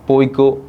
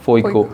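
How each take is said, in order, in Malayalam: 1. ഈ വാക്ക് തുടങ്ങുന്നത് സാധാരണ പ ശബ്ദം കൊണ്ടാണ്. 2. ഈ വാക്ക് തുടങ്ങുന്നത് ഫ ശബ്ദം കൊണ്ടാണ്. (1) "പ എന്ന അക്ഷരത്തിന് പകരം" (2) "ഫ യൂസ് ചെയ്യും"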